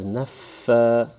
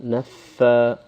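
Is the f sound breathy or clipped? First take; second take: breathy; breathy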